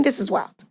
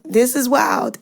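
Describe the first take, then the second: First: Inner thought. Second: Said in the usual way. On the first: Shown as a demonstration. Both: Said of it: "In my brain".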